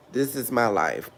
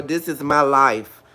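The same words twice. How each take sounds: First: Much softer, lower this is my life; soft echo. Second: Slow, weighty this is my life, leaning on my; slow emphatic. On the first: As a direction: let it fall away, almost to yourself. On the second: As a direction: say it slowly, stressing my. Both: Real, not acted.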